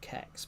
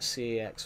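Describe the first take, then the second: First: The name is one word starting with k. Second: The name is spelled out as two letters. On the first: "or Kex" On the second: "You can call it C X"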